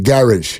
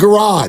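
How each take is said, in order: First: It is said with a British accent. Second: It is said with an American accent. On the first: This is how English people say it. The speaker calls it right. "my buddy would call that the garage" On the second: This is how Americans say it. The speaker calls it wrong. "that's so much cooler than garage"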